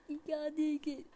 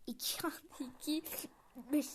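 First: Firm mock teacher voice, a little louder. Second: Whispered math question breaking into a laugh; giggling whisper. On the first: Pretending to be a teacher quizzing the class, mock firm. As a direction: quiz the class like a playful teacher. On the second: Pretend. Playing teacher to viewers, giggly whisper. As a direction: whisper it and crack up halfway. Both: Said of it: "Ya ben öğretmenim".

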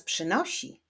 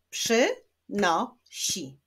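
First: Said in the usual way. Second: "Przynosi" slowly as przy, no, si; split into syllables. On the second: Shown as a demonstration. Teacher clapping syllables of przynosi, slowly split. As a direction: clap out "Przynosi" in three separate beats. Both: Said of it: "Wyklaszczmy sylaby".

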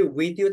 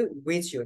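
First: Said in the usual way. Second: "with you" blended into "wichu"; "with you" as one linked word, with ch; linked pronunciation. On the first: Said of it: "with you থাকলে আমরা বলি". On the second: Shown as a demonstration. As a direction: merge the th and y of "with you" into a ch. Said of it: "আমরা বলি with you".

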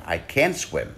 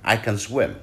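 First: "can" punched clearly, vowel open; stress on can. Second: "can" reduced and quick, weight on "swim"; can unstressed. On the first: Teacher demonstrating stressed "can" for can't. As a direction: lean on "can" to mean cannot. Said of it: "nhấn mạnh vào chữ can". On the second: Teacher showing weak "can" in "I can swim". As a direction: glide over "can", land on "swim". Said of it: "Mình không nhấn vào chữ can". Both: Shown as a demonstration.

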